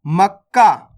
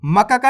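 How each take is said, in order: First: मक्का as "mak-kaa", k held; correct doubled consonant. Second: मक्का का run as "ma-ka-kaa"; wrong full-letter reading. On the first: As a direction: close on k, then release "kaa" in मक्का. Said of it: "मक्का का नहीं पढ़ना". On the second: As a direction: give each k its own vowel in मक्का का. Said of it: "नहीं पढ़ना". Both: Shown as a demonstration.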